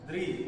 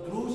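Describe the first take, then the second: First: The syllable is said like 'dri'. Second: The syllable is said like 'dru'. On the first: The speaker calls it right. "हा री, द री रिकार आहे" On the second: The speaker calls it wrong. "तर द्रु शब्द नाही"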